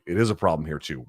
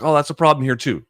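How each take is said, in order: First: Said in the usual way. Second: Higher, louder mock protest; imagined objection. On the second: Voicing viewers who say it happens here, protesting. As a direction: pitch it up as someone else's objection. Voices a listener's likely objection.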